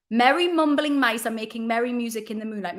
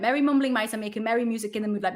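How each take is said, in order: First: Said in the usual way. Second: Fast tongue twister. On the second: Shown as a demonstration. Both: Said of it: "The tongue twister is".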